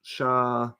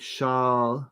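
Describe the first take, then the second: First: The vowel is a long open 'ah'. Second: The same.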